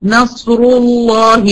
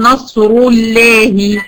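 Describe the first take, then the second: First: نصر الله said slowly with a heavy emphatic lam in الله; thick lam after the rolled ra of نصر; correct heavy lam. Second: نصر الله said slowly with a thin, light lam in الله; thin the lam of الله as a mistake; wrong thin lam. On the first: Teacher giving the correct reading, heavy lam. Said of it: "أقول مثلًا إيه؟". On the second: Teacher asking if the thin reading is allowed, thin lam. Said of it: "ينفع أقول". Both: Shown as a demonstration.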